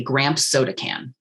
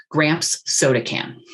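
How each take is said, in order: First: "Gramps soda can" with the two S sounds run together into one; S sounds merged. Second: "Gramps soda can" with a small gap between the S of "Gramps" and the S of "soda", slowly; both S sounds separate. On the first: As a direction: slur "Gramps soda" so only one S is heard. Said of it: "we will lose that second S". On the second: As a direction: give each S of "Gramps soda" its own space. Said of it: "leave that space for both of those S's". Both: Shown as a demonstration.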